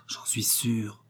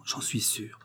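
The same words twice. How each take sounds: First: Whispering it, breath only; a tender whisper repeating the words; soft repeated whisper, no voice. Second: Very soft. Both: A narrator's reading. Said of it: "lui disait doucement".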